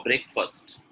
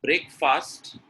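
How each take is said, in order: First: BREAKFAST with a reduced "fust" ending; correct pronunciation. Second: BREAKFAST with a full "fast", slowly; wrong pronunciation. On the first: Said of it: "Breakfast is correct". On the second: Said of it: "Breakfast is number one". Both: Shown as a demonstration.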